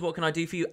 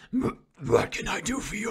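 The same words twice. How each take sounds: First: It is read in a plain, ordinary voice. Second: It is said in a put-on, dumber voice.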